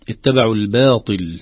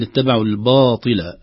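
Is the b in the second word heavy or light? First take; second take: light; heavy. First: The b in the second word sounds light. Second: The b in the second word sounds heavy. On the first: The speaker calls it right. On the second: The speaker calls it wrong.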